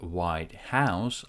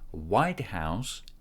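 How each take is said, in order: First: The stress falls on the word house. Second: The stress falls on the word white. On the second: It is the residence of the US president.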